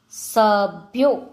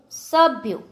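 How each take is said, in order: First: સભ્યો slowly, split into syllables; slow word demonstration. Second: Said in the usual way. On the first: Shown as a demonstration. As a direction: break up સભ્યો for spelling. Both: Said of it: "જોડણી ઉપર જોજો".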